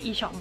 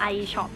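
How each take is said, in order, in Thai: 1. ตัวอักษรแรกอ่านแบบเยอรมัน 2. ตัวอักษรแรกอ่านแบบอังกฤษ (1) "มันก็ไม่ผิดที่คนเยอรมันจะเรียก" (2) "เขาก็ตั้งใจให้มันเป็น, international"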